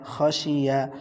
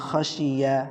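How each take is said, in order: The two takes are said the same way.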